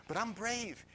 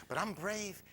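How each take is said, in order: No difference in how they are said.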